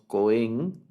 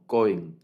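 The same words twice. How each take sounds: First: The stress is on the second syllable. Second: The stress is on the first syllable. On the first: The speaker calls it wrong. "No decimos Cohen" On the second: The speaker calls it right. "el acento en este sustantivo es en la primera sílaba"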